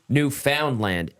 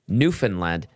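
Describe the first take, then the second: First: The stress is on the middle syllable. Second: The stress is on the first syllable. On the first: The speaker calls it wrong. "not middle syllable" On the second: The speaker calls it right. "Emphasis is on the first syllable"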